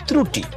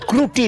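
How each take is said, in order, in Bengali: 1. শব্দটি tr ধ্বনি দিয়ে শুরু হয়। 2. শব্দটি kr ধ্বনি দিয়ে শুরু হয়। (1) "না ত্রুটি" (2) "ওটা ক্রুটি না"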